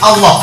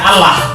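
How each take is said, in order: First: The 'l' is heavy, with a darkened vowel. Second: The 'l' is light, with a clear vowel. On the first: "dibaca tafkhim itu artinya dibaca seperti Allah pakai U" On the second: "Tipis itu artinya dibaca Allah pakai A"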